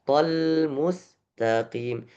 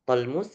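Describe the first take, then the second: First: The L is held briefly before continuing. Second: The L runs straight into the next sound. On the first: The speaker calls it right. "Tetap ada yang harus ditahan satu harokat" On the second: The speaker calls it wrong. "tolmus enggak"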